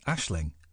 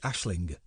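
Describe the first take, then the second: First: The name ends without a hard g sound. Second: The name ends with a hard g sound. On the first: "I'm not pronouncing the G" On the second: "If I was pronouncing the G, it would be"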